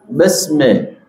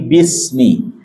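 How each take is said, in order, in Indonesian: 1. Kedua vokal diucapkan sebagai e. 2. Kedua vokal diucapkan sebagai i. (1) "bukan besme" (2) "tapi bismi"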